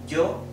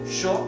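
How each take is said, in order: First: The word begins with a 'y' sound. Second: The word begins with an English 'sh' sound. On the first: "and yo in all the other Spanish-speaking countries" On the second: "Sho in Argentina and in Uruguay"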